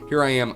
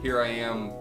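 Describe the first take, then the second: First: The voice is recorded about one foot away. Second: The voice is recorded about four feet away. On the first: "a foot away" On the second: "probably about four feet away"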